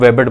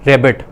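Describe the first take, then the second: First: The word begins with a W sound. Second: The word begins with an R sound. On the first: The speaker calls it wrong. "वो रेबिट को वेबिट बोलता रहे" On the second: The speaker calls it right. "आर sound है"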